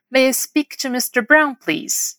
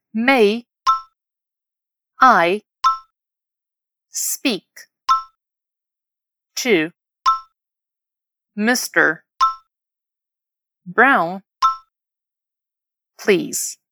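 First: Whole model phrase. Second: "May", "I", "speak", "to", "mister", "Brown", "please" each isolated; word by word. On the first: Teacher modelling a phone request, slow and connected. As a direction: run "May I speak to mister Brown, please" together, unhurried. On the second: Teacher having learners repeat after her, word by word. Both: Shown as a demonstration. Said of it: "Repete depois de mim".

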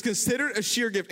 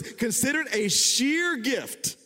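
First: Said in the usual way. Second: Scripture reading. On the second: Acted.

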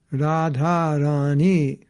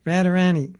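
First: "Radharani" very slow, every syllable held; long syllables. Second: "Radharani" quick, higher, with short flattened a's like "Radda-ranny"; short-syllable mispronunciation. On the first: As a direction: stretch "Radharani" to Raa-dhaa-raa-nee. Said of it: "every syllable is long". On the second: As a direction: show the careless wrong "Radharani". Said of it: "Like some devotees say". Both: Shown as a demonstration.

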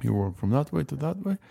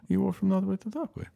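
First: Said in the usual way. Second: Raised, sing-song tourist explanation; higher mock tour guide. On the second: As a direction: lift it up like a bored guide. Mocking tour guide, repeated higher.

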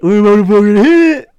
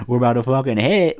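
First: Louder, higher and fast hype yell; shouting. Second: Said in the usual way. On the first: Real, not acted. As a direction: yell it out with excitement. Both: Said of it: "repeat louder".

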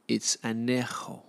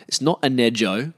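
First: Anejo said an-YEH-ho with a soft breathy h; "anejo" with a Spanish h sound, said slow and soft; Spanish pronunciation. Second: Anejo said as an-eh-joe with a hard English j; flat Australian "anejo", j like in joe; wrong pronunciation. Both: Shown as a demonstration.

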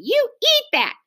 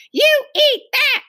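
First: High, forceful insistence; insistent repeat. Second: Put-on high, slow, loud child's order; shouting. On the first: Hostess thrusts cookie at boy, insistent. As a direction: push the order out high and hard. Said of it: "she repeated". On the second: Angry hostess orders a guest to eat, shouting. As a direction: shout it high, leaning on each word. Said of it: "she shouted". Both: A narrator's reading.

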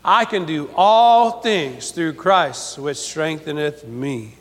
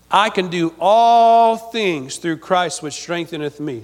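First: Slow unison repeat of the verse; slow call and response. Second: Each word laid out slowly for the congregation; slow solemn scripture reading, read for the church to repeat; slow recited verse. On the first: Congregation repeats the verse slowly after the preacher. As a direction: say it along with the crowd, slowly. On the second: Preacher recites the verse slowly for the church to repeat back. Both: Shown as a demonstration. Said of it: "Say that with me".

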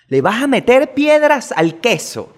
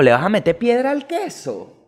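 First: Indignant disbelief. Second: Said in the usual way. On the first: Real, not acted. Indignant repeat of question.

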